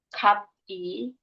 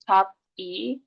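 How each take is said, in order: No difference in how they are said.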